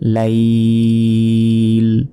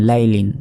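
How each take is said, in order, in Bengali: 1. শব্দটি শেষ ব্যঞ্জনে কোনো স্বর ছাড়া থেমে যায়। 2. শব্দটি পূর্ণ "-in" ধ্বনি দিয়ে শেষ হয়।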